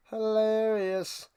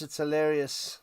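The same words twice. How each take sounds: First: Slow, stretched "Hilarious"; deadpan drawn-out "Hilarious". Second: Said in the usual way. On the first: Acted. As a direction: savour the word "Hilarious" slowly. Repeats word drawn out.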